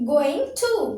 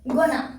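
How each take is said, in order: First: 'Going to' is said as two full words. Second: 'Going to' is blended into one word, 'gonna'.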